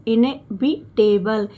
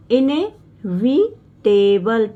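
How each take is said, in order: First: Said in the usual way. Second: इनएविटेबल drawn out slowly with a rise at the end; slow model word. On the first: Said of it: "आई और एन को इने". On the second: Shown as a demonstration. Teacher showing students the new word, slow and rising. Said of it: "टेबल, देखिए बी एल ई को टेबल पढ़ा जा रहा है".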